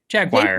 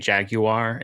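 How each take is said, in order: First: The name is said with an American pronunciation. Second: The name is said with a British pronunciation. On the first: "it's normal to just say Jaguar. That's the American way" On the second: "in English, because it's a European company, right? They actually say Jaguar"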